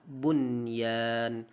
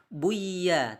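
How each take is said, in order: First: The n sound is kept clearly before y. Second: The n sound merges into the following y. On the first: The speaker calls it right. "tapi tetap dibaca bunyan" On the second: The speaker calls it wrong. "tidak boleh kita baca buya"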